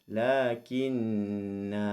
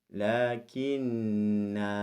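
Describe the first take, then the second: The two takes are said the same way.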